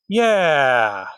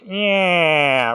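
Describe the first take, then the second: First: It is said in a plain voice. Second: It is said in a nasal, duck-like voice.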